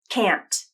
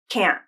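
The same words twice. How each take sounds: First: The final T is clearly released. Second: The final T is cut off by a glottal stop. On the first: "with a true T" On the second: "and then a stop T"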